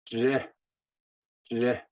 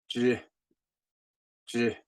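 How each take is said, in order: The two takes are said the same way.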